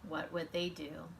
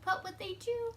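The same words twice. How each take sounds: First: It is read flatly, without expression. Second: It is read with lively expression.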